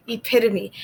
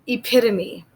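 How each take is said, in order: First: "epitome" repeated, ih-PIT-uh-mee, falling; repeated model word. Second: "epitome" as ih-PIT-uh-mee, falling; model word. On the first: Teacher repeats "epitome" for learners, falling. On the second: Teacher introduces "epitome" to learners, clear. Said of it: "This word is". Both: Shown as a demonstration.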